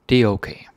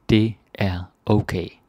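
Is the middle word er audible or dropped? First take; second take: dropped; audible. First: Said fast with the middle word er dropped. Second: Said slowly with the middle word er audible.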